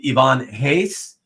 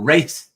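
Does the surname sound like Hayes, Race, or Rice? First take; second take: Hayes; Race. First: The surname starts with an H sound. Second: The surname starts with R and rhymes with 'face'. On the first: This follows the original Portuguese pronunciation. The speaker calls it right. "it is indeed Ivan Hayes, Portuguese pronunciation" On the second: This is how many people commonly say it. The speaker calls it wrong.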